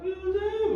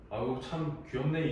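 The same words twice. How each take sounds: First: Put-on much higher, cooing baby talk. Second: Said in the usual way. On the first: Shown as a demonstration. Adult cooing at a baby, much higher baby talk. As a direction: coo at the baby like a doting adult. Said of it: "그런 베이비 토크를 한다는". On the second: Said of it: "이렇게 안 하죠".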